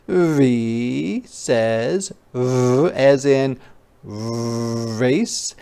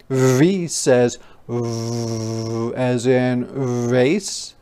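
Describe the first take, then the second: No difference in how they are said.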